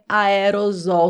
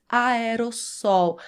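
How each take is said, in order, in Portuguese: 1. A consoante antes da última sílaba é z. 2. A consoante antes da última sílaba é s. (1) "não é aerosol" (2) "você vai pronunciar com dois S's, aerossol"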